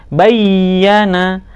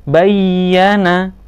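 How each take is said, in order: The two takes are said the same way.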